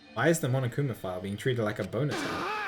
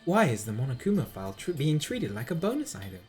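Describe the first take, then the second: First: It is said in the speaker's own voice. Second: It is said in an imitation of Nagito's voice.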